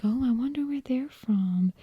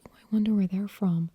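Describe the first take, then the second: First: Higher-pitched Southern accent, curious; Nancy. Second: Neutral general American accent, passing remark; classic American accent. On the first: Imagining people hearing Nancy, higher Southern accent. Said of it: "if I spoke like this, like Nancy". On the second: Imagining a listener's thought, neutral American accent. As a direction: wonder aloud in an unremarkable American accent. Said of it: "what you would call the classic American accent". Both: Shown as a demonstration.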